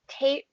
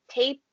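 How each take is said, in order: No difference in how they are said.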